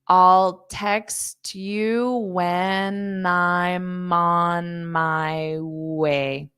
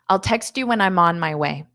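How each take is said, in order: First: The sentence is spoken slowly. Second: The sentence is spoken quickly. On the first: "I'll say it slow so you can hear those changes" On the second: "Now I'll say it fast"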